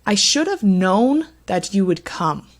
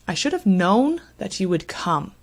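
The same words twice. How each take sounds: First: KNOWN and COME stressed, other words light; stress on key words. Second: "known" and "come" clearly stressed, pronouns reduced. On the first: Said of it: "Let me read this for you". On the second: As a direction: repeat it, hitting "known" and "come". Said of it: "The two words here that receive stress are the main verb known". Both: Shown as a demonstration.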